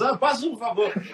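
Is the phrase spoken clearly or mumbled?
mumbled. The phrase is grunted and mumbled indistinctly.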